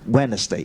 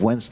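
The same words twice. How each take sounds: First: Every letter is sounded, including the D. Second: The D is dropped and not sounded. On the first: The speaker calls it wrong. "the first impression they said Wednesday" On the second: The speaker calls it right. "instead of Wednesday"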